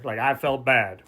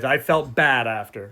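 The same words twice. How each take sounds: First: "I felt bad" whispered, half mocking; whispered aside. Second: Said in the usual way. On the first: Shown as a demonstration. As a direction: whisper "I felt bad" like you don't mean it. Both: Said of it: "But I didn't feel bad".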